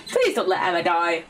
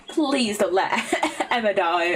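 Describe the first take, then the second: First: Said in the usual way. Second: Laughing. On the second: Acted. Begging game not to kill Emma.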